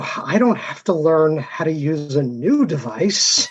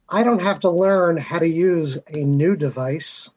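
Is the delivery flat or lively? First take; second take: lively; flat. First: It is said with lively, varied intonation. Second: It is said flatly, with little intonation.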